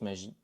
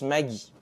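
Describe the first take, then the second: First: The name is said with the advertising pronunciation. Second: The name is said with a regional Alsatian pronunciation. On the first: This is how the advertisements say it. "la pub prononce magie" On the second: This is how people in Alsace usually say it. "C'est la prononciation courante en Alsace"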